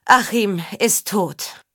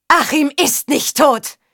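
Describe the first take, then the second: First: Slow, heavy pronouncement; grave announcement. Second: High, drawn-out desperate cry; near-breaking denial. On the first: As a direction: state the death slowly, without raising the voice. Father announces his son's death. (langsam und schwer verkündet) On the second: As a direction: cry out in anguished refusal. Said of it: "Ihre Stimme drohte sich zu überschlagen". (verzweifelter, hoher Aufschrei) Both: A narrator's reading.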